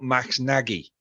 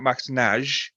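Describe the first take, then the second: First: The surname is said with a final vowel. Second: The surname is said with no final vowel. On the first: The speaker calls it wrong. "it's not Max Nagy" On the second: The speaker calls it right. "the I is silent"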